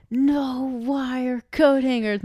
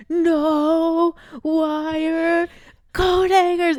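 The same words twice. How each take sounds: First: Slow, raised-pitch mock outrage; hammed-up furious movie quote; Mommy Dearest. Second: High, loud, drawn-out mock shriek; hammed-up screaming movie mother; Mommy Dearest. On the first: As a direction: draw out each word like a movie tirade. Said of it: "what's that movie with the wire coat hangers". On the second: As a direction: blast out each word in pretend hysteria. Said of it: "It's a crazy clip".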